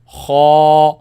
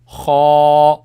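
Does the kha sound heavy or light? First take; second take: heavy; heavy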